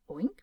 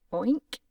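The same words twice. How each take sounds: First: A small whispered oink. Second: A loud, rising oink like a pig. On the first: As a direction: breathe a tiny pig sound. Doctor oinks again. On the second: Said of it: "the doctor replied". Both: Acted.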